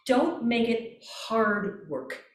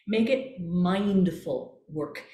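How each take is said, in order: First: Slow. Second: Slow and calm, each word drawn out; unhurried and mindful. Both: Shown as a demonstration.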